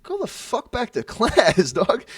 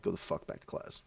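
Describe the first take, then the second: First: Loud, high, drawn-out command; retold outburst with a laugh breaking in; angry order. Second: Hushed, soft retold dismissal; quiet, understated command; low-key order. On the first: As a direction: order him off, slow and forceful. Acted order to the kid. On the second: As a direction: send him off under the breath. Same order retold, calmed down.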